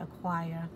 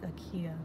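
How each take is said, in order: First: The name is said with a 'w' sound. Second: The name is said without a 'w' sound. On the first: This is how Europeans pronounce it. "but the Europeans call it Akwaya" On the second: This is the original local pronunciation. "It's really pronounced like Akia"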